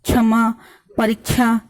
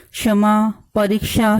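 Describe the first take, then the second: First: क्षमा said as छमा with a छ sound; परीक्षा mispronounced as परीछा; wrong छ sound. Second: क्षमा with a clear क्ष sound, not छ; correct क्ष. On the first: (गलत उच्चारण: छ) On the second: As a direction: say परीक्षा with kṣ. (सही उच्चारण: क्ष) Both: Shown as a demonstration. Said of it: "नहीं बोलना चाहिए".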